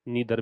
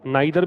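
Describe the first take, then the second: First: The first vowel sounds like 'ee'. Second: The first vowel sounds like 'eye'. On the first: "नीदर भी हो सकता है" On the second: "नाइदर भी हो सकता है"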